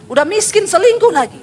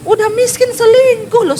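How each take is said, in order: First: Scolding preacher. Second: Much higher, louder indignant "selingkuh"; outraged preaching. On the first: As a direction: scold the men from the pulpit. (menegur dengan keras) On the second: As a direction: cry out in disbelief at them. (berseru geram) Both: Acted. Preacher scolding unfaithful husbands.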